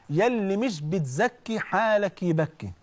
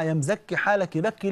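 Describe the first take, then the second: First: Slow, weighty correction of يا اللي مش بتزكي; slow corrected proverb. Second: Said in the usual way. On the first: Shown as a demonstration. Preacher gives the congregation the corrected proverb, slow and deliberate. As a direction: spell out the right version, drawing out مش بتزكي. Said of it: "المثل ده غلط يا جماعة". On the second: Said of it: "نقول المثل ده غلط يا جماعة".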